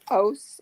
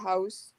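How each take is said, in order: First: It is said in a strong local regional accent. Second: It is said in a neutral standard accent. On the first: "Didn't forget his home roots" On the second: "instead of"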